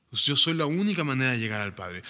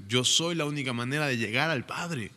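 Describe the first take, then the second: First: "única" leaned on in the repeat; stress on única. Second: Said in the usual way. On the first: Shown as a demonstration.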